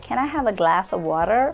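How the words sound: It is said in an American accent. "Or in American"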